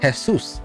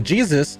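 First: The name begins with an H sound. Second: The name begins with a J sound.

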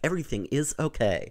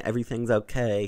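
First: The words 'everything is' are said in full. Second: The words 'everything is' are contracted together. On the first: It sounds stiff and overly formal. The speaker calls it wrong. "He's like" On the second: It sounds casual and natural. The speaker calls it right. "he never says, like"

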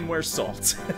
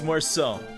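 First: The name ends with an audible L-T sound. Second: The name ends in an open O sound. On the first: The speaker calls it wrong. "You don't say Muersalt" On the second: The speaker calls it right. "It's Muerso. He's French"

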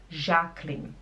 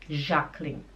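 No difference in how they are said.

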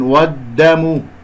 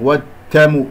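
First: The d sound is strong and fully voiced. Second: The d sound is weak, between d and t. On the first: The speaker calls it right. "الدال شديد مجهور" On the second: The speaker calls it wrong. "لا أنا أخرجه ضعيف، والتم كأنه بين الدال والتاء"

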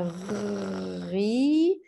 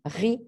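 First: It is said slowly with the sounds drawn out. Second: It is said quickly as one short syllable. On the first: "lentement en allongeant les sons" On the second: "on fait ça vite"

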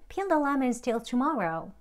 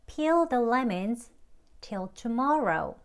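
First: The sentence is said quickly, in one go. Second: The sentence is said slowly, in chunks. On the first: "조금 이제 빨리 할게요" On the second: "peel the lemons 까지만 먼저 하고 조금 끊어서 하겠습니다"

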